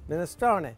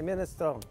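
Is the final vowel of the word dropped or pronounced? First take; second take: pronounced; dropped. First: The final vowel is lightly pronounced. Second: The final vowel is cut off. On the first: "A little bit on the end" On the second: "my grandmother might say minestrone. She might cut it off"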